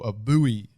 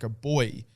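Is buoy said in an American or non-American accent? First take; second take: American; non-American. First: Buoy is said in an American accent. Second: Buoy is said in a non-American accent.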